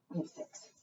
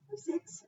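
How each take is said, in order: First: Hushed whisper of "We have six."; conspiratorial whisper to the kids. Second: High, excited "We have six."; high-pitched thrilled reveal; bright exclaim. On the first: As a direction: whisper it like a secret. Counting birds with children. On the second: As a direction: pop up into a delighted high note. Repeat after whisper. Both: Acted.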